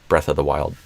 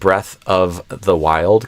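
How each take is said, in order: First: The V sound in 'of' is dropped. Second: The V sound in 'of' is pronounced. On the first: "You don't always have to say the V" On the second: "Kind of like Breath of the Wild can become"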